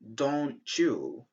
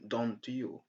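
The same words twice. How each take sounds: First: The t and y merge into a ch sound. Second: The t and y are said as separate sounds. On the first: The speaker calls it right. "gives us ch, like in don't you" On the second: The speaker calls it wrong. "instead of saying don't you"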